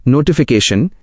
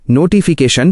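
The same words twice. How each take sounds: First: Said in the usual way. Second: नोटिफिकेशन sounded out syllable by syllable with full long ee vowels; pronunciation model. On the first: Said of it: "उच्चारण मार्गदर्शिका". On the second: Shown as a demonstration. Guide showing learners how to say the word, नोटिफिकेशन sounded out syllable by syllable. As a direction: say नोटिफिकेशन as no-tee-fee-kay-shan, each part distinct. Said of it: "इन शब्दों को बिल्कुल सही बोलें".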